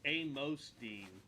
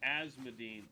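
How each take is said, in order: First: The S sound comes after the M sound. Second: The S sound comes before the M sound. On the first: The speaker calls it right. "It's Amosdine. My bad" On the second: The speaker calls it wrong. "I've been saying Asmodine"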